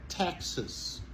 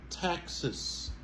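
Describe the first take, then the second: Both takes have the same delivery.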